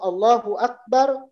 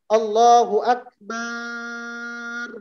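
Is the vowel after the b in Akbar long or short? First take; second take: short; long. First: The vowel after b is kept short. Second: The vowel after b is drawn out long. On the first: God is the greatest. The speaker calls it right. "Allah itu maha besar" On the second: God is a drum. The speaker calls it wrong. "kalau ba-nya dipanjangkan ... ba-nya panjang"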